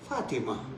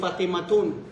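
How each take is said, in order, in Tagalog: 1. Natatapos ang salita nang walang '-tun'. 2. May binibigkas na '-tun' sa dulo ng salita. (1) "No. Fatima" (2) "Huwag mo sabihin Fatimatun"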